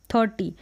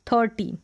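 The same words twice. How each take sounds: The two takes are said the same way.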